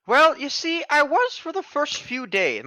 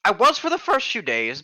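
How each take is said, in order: First: Put-on high, slow old woman voice; old lady voice. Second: Said in the usual way. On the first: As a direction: lean into the creaky granny. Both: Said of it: "My old lady voice is sneaking in here".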